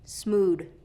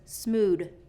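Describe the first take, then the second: First: It ends with a d sound. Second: The same.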